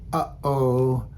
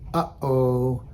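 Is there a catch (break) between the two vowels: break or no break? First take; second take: break; break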